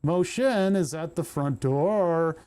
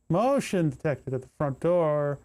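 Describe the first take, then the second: First: Slow, stilted read with "motion" stressed; mocking a stilted voice assistant stressing "motion". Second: "motion" stressed in a stilted read; mild imitation of a stilted voice assistant; mock AI voice. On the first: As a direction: imitate a smart speaker putting the stress on "motion". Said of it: "putting inflections on the wrong words". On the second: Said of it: "The wrong syllable".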